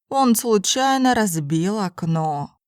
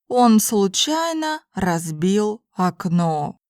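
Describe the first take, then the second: First: It is spoken at a normal conversational pace. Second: It is spoken slowly and carefully. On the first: "then in normal speed Russian" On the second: "first in slow Russian"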